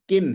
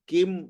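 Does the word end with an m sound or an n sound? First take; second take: n sound; m sound. First: The word ends with an n sound. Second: The word ends with an m sound. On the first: The speaker calls it right. "किन है" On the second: The speaker calls it wrong. "किम नहीं है"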